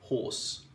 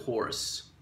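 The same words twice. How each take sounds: First: The R sound is left out. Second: The R sound is clearly pronounced. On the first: "let me give you an example of a non-rhotic pronunciation" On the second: "or making the R more evident"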